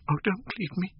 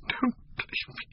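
First: A desperate high voiced "Oh, don't leave me" from the young actress; high pleading plea. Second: The final plea breathed as a voiceless whisper, choked with sobbing; broken whisper. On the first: Sybil begging him to stay. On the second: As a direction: let "Don't leave me." collapse into a whispered sob. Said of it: "A fit of passionate sobbing choked her". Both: A narrator's reading.

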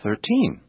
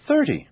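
First: Put-on "Thirteen" stressed on TEEN without dragging; natural final stress. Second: "thirty" stressed on a high THIR, short ending; natural first-syllable stress. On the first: Teacher now saying them naturally, "Thirteen" stressed on TEEN. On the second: Teacher now saying them naturally, "thirty" stressed on THIR. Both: Shown as a demonstration. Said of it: "Now I'll say them naturally".

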